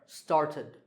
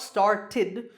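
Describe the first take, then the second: First: The final -ed syllable is said softly. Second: The final -ed syllable is said strongly. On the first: The speaker calls it right. "it's a little softer" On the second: The speaker calls it wrong. "It's not started"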